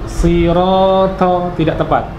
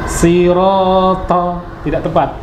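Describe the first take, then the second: The two takes are said the same way.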